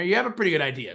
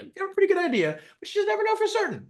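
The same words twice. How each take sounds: First: Said in the usual way. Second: Much higher, fast, sing-song mocking echo of own line; high silly voice. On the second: Repeating own point to viewers, in a high mocking voice.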